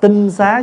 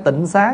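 First: The first syllable has a level tone. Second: The first syllable has a low heavy tone. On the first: The speaker calls it right. "tinh xá chứ không phải tịnh xá nha" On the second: The speaker calls it wrong. "mình đọc hơi trại là chữ tịnh xá đó"

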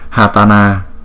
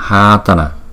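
First: The first vowel is said short. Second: The first vowel is held long. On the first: The speaker calls it wrong. "Nếu mà chúng ta đọc là Hatana, Hatana thì không đúng" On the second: The speaker calls it right. "Chúng ta thấy rõ ràng chữ A đầu tiên có dấu gạch ngang. ... Chúng ta phải đọc là Hatana"

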